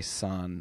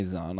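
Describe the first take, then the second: First: "san" begun with an unvoiced S sound; "san" with a hissless plain S, no Z. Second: "zan" begun with a buzzed Z sound; "zan" with a voiced Z in place of S. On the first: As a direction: say "san" with an S, as in "sun". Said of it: "I will probably say san". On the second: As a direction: say "zan" with a Z, as in "zoo". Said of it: "but I'll try zan". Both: Shown as a demonstration.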